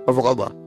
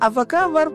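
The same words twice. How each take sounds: First: It is said sullenly, without warmth. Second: It is said warmly, with a smile.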